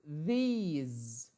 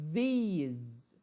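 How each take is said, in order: Both takes have the same delivery.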